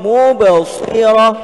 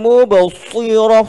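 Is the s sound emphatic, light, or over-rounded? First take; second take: emphatic; over-rounded. First: The s is a heavy, emphatic sound. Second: The s is said with pouting, rounded lips. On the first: The speaker calls it right. "huruf sad" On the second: The speaker calls it wrong. "Jangan dimuncung"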